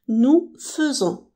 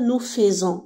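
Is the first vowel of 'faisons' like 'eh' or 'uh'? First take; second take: uh; eh. First: The first vowel of faisons sounds like 'uh'. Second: The first vowel of faisons sounds like 'eh'. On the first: The speaker calls it right. "mais ça se prononce E" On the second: The speaker calls it wrong. "On ne dit pas nous faisons"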